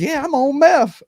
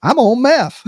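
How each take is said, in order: First: Much higher put-on voice of a calm guy; high, offhand imitation of the guy fixing the bike; calm dude. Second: Higher, louder imitation of a calm guy; mild put-on voice of the bike guy; calm dude. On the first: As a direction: play him as totally casual about it, up high. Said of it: "he goes". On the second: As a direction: toss off the confession casually, voicing him up high. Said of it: "He goes".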